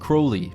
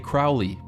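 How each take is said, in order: First: The first syllable rhymes with 'holy'. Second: The first syllable rhymes with 'foully'. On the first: This is the name's intended pronunciation. The speaker calls it right. "it is pronounced Crowley to remind you that I'm holy" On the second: This is the pronunciation used by the bearer's enemies. The speaker calls it wrong. "my enemies say Crowley and wish to treat me foully"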